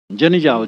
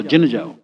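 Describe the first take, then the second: First: "जन" said with a clear short a; standard form. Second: "जिन" with a short i instead of "जन"; dialect pronunciation. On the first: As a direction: say "जन जाओ" in the book form. ("जन" का शुद्ध उच्चारण) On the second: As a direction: turn "जन जाओ" into the local "जिन जाओ". ("जिन" का देहाती उच्चारण) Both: Shown as a demonstration. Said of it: "जन को फिर जिन कर देते हैं".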